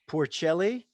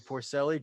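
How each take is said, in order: First: The name is pronounced the Italian way. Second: The name is pronounced the American way. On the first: "I'll give the Italian pronunciation for you" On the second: "you guys probably call him Jay Porcelli"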